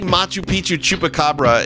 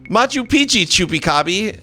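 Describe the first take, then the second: First: The last word is said as chupacabra. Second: The last word is said as chupicabi. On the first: The speaker calls it right. "say Machu Picchu chupacabra" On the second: The speaker calls it wrong. "she couldn't pronounce it, and she would say stuff like"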